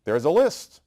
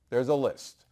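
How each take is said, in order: First: "list" louder and rising; emphatic. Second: Said in the usual way. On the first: Shown as a demonstration. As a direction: punch "There's a list" loud, pitch going up on "list". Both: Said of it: "repeated for emphasis".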